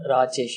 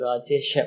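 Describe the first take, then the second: First: The name ends in a consonant, without a vowel. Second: The name ends with a final 'a' vowel. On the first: The speaker calls it wrong. "It is not Rajesh" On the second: The speaker calls it right. "it is Rajesha"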